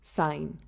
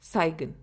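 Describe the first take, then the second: First: The G is silent before the N. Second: The G is sounded before the N. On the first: The speaker calls it right. "we pronounce it as sign" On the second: The speaker calls it wrong. "instead of saigon"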